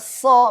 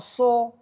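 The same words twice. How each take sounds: First: The vowel is a thick, open a. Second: The vowel is rounded like o. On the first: The speaker calls it right. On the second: The speaker calls it wrong.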